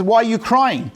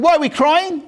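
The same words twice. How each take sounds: First: Said in the usual way. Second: High, indignant retort as the sages; mock-outraged comeback, voice jumping high; incredulous echo. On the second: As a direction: throw the question back in disbelief, pitched up.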